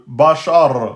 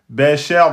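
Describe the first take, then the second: First: The vowel after the sh sound is heavy. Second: The vowel after the sh sound is thin. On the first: The speaker calls it wrong. "Ne dites pas euh, Bachar" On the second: The speaker calls it right. "c'est le ra qu'on emphatise, pas le cher"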